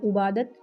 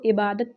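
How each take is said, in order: First: The word begins with a 'u' vowel. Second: The word begins with an 'i' vowel. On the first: The speaker calls it wrong. "आबादत या उबादत नहीं पढ़ेंगे" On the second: The speaker calls it right. "इसको इबादत पढ़ेंगे"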